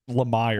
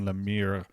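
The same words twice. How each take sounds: First: The name is said with English pronunciation. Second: The name is said with French pronunciation. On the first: "he's from out west, so you gotta say it" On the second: "If you use the French pronunciation"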